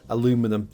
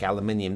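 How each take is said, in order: First: The word is said the American way, four syllables. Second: The word is said the British way, five syllables.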